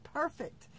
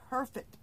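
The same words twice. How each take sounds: First: "perfect" said again higher, with extra emphasis; emphatic repeat. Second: Said in the usual way. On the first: Real, not acted. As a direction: lift the pitch and lean on "perfect".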